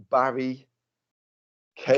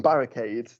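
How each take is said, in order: First: "Barry Cade" said as two separate names; "Barry", small pause, then "Cade"; split name joke. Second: "Barricade" run together as one word; proper name. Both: Shown as a demonstration. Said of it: "rather than Barricade".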